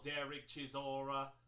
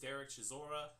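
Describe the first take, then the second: First: The name is said in a put-on British accent. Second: The name is said in a plain, unaffected accent.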